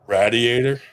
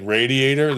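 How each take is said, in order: First: It is said with a Philadelphia-area accent. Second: It is said with a standard American accent.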